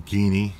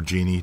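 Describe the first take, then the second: First: GEANY said with a hard G, "GEE-nee" as in geese; hard G pronunciation. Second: GENIE said with a soft G, "JEE-nee"; soft G pronunciation. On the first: Naming the program editor for viewers, Geany with a hard G. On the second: Offering viewers the other pronunciation, Genie with a soft G. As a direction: say Genie with a j sound, like the lamp spirit. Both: Shown as a demonstration. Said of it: "depending on how you wanna pronounce it".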